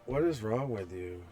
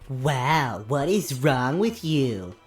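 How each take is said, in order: First: It is said in a normal voice. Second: It is said in a nasal, mocking voice.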